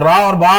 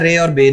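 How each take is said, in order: First: The letter names end in an open 'aa' vowel. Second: The letter names end in an 'ay' vowel. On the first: This is the Arabic way of naming the letters. The speaker calls it right. "तो रा और बा आपने कहना है" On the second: This is the Urdu way of naming the letters. The speaker calls it wrong. "रे और बे नहीं कहना आप इसको"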